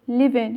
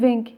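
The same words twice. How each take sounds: First: The word ends on the n sound. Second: The final g sound is clearly pronounced. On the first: The speaker calls it right. "يوصلوا عند حرف الإن حرف الجي ما يلفظوه" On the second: The speaker calls it wrong. "الأجانب ما يقولوا living"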